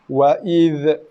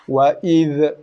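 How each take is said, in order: First: The final dh ends with a bouncing echo. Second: The same.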